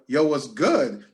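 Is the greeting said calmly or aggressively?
aggressively. The greeting is said in a tense, aggressive tone. It signals that a fight is about to start. The speaker calls it wrong. "That means it's on and popping"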